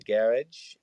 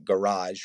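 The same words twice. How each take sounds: First: It is said with a British pronunciation. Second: It is said with an American pronunciation. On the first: "if I'm saying that right" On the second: "we say what, garage"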